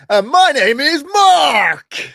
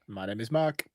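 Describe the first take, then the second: First: It is said with lively enthusiasm. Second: It is said flatly, without enthusiasm.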